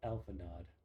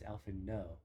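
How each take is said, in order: First: The name ends with a clear final d sound. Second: The name ends in an open vowel, no final d. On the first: The speaker calls it wrong. "read this name as Alpha Nod" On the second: The speaker calls it right. "The right way to say the character's name"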